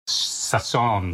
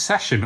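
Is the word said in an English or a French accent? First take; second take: French; English. First: It is said in a put-on French accent. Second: It is said in a plain English accent. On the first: "do you say it in a French accent?" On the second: "do you say it as session"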